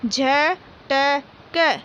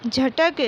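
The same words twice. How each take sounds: First: झटक stretched very slowly, each syllable drawn out; slow syllable reading. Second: Said in the usual way. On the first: Shown as a demonstration. Teacher sounding out झटक for young pupils, very slowly. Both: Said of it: "बोल बोल कर पढ़ेंगे".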